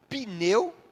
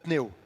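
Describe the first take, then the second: First: A short vowel sound separates the P and N. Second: The P and N join with no vowel between. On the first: The speaker calls it wrong. "colocam como se fosse uma vogal entre o P e o N. Que não existe" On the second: The speaker calls it right. "Porque não tem uma vogal entre o P e o N"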